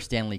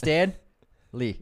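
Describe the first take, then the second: First: The two words are run together quickly. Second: The two words are said clearly apart. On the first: The speaker calls it wrong. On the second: The speaker calls it right.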